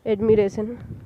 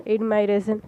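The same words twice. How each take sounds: First: "admiration" with a short "mi" second syllable; self-corrected admiration. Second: "admiration" with "my" as its second syllable; mispronounced admiration. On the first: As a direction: say "admiration" as ad-mi-RAY-sun. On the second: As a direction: say "admiration" as ad-my-RAY-sun. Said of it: "admiration. Yeah". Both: Real, not acted.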